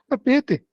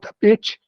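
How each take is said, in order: First: The final t is a plain t. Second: The final t is said like ch. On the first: This is how people from another region speak. "Santa Catarina fala tapete" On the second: This is the rural caipira way of speaking. "Esse final é tá, tch, tch"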